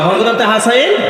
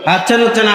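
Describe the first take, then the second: First: The name is said clearly as Hasan. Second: The name is distorted to sound like hatchen. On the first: The speaker calls it right. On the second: The speaker calls it wrong.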